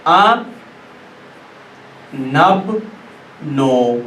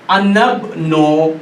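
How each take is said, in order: First: आ नब नो split with long pauses; आ नब नो said apart, pause between each; syllable by syllable. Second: अनब नो stretched slowly, the alif dropped; अनब नो drawn out with no alif sound; slow joined reading. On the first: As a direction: break अनब्नु into slow syllables आ नब नो. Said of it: "इसको पढ़ेंगे इस तरीके से". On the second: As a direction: join अना and इब्नु as अनब नो, slowly. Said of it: "इस तरीके से आप पढ़ेंगे". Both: Shown as a demonstration.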